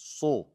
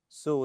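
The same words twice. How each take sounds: First: The s sound is heavy and thick. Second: The s sound is light, like plain s. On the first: The speaker calls it right. "It's su. Sad is heavy" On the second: The speaker calls it wrong. "Su is also wrong"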